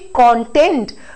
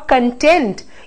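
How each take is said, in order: First: The stress is on the first syllable. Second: The stress is on the second syllable. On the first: It is used as a noun. "we are using it as a noun form" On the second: Someone is satisfied. "it means you are satisfied"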